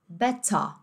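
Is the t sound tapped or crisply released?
crisply released. The t is a crisp released t, British style. "no inglês mais britânico, você vai ouvir como?"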